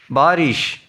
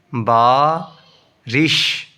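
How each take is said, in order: First: Said in the usual way. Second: "بارش" slowly, split after the long first syllable. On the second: Shown as a demonstration. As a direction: draw out and separate the two syllables of "بارش". Teacher splits, then joins word.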